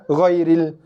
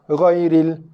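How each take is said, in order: Both takes have the same delivery.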